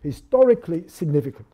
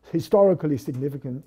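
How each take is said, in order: First: Historically SIGNIFICANT, weight meant for the second word; stress on significant. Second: HISTORICALLY stressed, significant trailing after it. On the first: Lecturer contrasting a second reading for students, stress on significant. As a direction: put the emphasis on significant. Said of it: "put the emphasis on the second word". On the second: Lecturer showing students Levinson's distinction, stress on historically. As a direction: put the weight on the word historically. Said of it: "If you put emphasis on the first word". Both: Shown as a demonstration.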